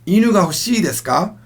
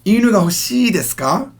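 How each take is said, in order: First: The final vowel of hoshii is long. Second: The final vowel of hoshii is long.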